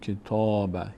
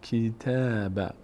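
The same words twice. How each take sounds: First: The t sound is heavy and full. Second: The t sound is light and thin. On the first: The speaker calls it wrong. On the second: The speaker calls it right.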